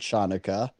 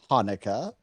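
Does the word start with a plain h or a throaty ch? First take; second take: throaty ch; plain h. First: The word begins with a throaty ch sound. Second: The word begins with a plain h sound.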